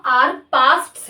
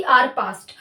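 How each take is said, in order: First: "पास्ट्स" with its final s clearly sounded; plural title stressed. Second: "पास्ट" with no final s; the singular "आर पास्ट" set against the plural; singular, the wrong form. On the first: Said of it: "ना कि आर पास्ट". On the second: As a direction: clip "आर पास्ट" off without the s. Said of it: "नाम आर पास्ट्स है, ना कि". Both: Shown as a demonstration.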